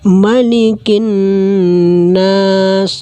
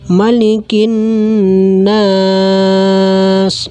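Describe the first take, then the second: First: The long vowel is held for two counts. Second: The long vowel is held for four counts. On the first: "dua harakat" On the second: "empat harakat"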